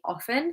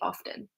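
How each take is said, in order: First: The T sound in the middle is silent. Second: The T sound in the middle is pronounced. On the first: This is how older people tend to say it. "older members of my family would say often" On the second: This is how younger people tend to say it. "I do pronounce the T and I say often"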